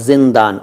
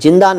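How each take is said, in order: First: It begins with a 'z' sound. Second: It begins with a 'j' sound. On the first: The speaker calls it right. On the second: The speaker calls it wrong. "जिंदान नहीं"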